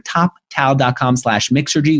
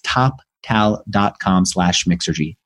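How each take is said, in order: First: It is said fast. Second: It is said slowly.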